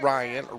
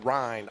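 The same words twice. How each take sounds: First: The name is said with two syllables, Rye-an. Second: The name is said with one syllable, like Ryne. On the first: The speaker calls it wrong. "not Ryan" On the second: The speaker calls it right. "R like Ryan Sandberger"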